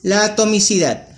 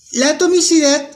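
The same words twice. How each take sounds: First: Said in the usual way. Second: Atomicidad said much higher and stressed, with pauses around it; emphatic repeat. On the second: Shown as a demonstration. Teacher to students introducing a new term, stressing atomicidad. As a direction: lift the word atomicidad up high to mark the new term. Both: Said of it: "vamos a tener en cuenta qué es la atomicidad".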